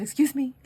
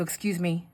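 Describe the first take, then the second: First: Higher, louder repeat; calling for attention. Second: Said in the usual way. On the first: Retold or imitated. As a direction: say it higher to get his attention. Repeats to get man's attention.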